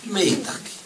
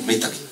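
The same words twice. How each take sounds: First: It is said in a warm, appreciative tone. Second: It is said in a flat, unappreciative tone. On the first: The speaker shows real gratitude. The speaker calls it right. "You show your appreciation by the tone of your voice" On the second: The speaker shows no gratitude. The speaker calls it wrong.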